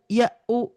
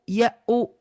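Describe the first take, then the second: Both takes have the same delivery.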